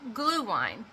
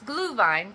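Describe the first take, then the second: First: The word is said with an English-style pronunciation. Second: The word is said with a German pronunciation. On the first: The speaker calls it wrong. "most people would pronounce it" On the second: The speaker calls it right. "it's Glühwein because it's German"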